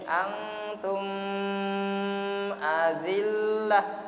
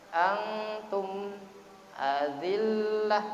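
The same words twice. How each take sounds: First: The m sound is merged into the next sound. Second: The m sound is pronounced clearly and distinctly. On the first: The speaker calls it wrong. "tidak boleh" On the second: The speaker calls it right. "harus antum azillah karena idhar, jelaskan ini"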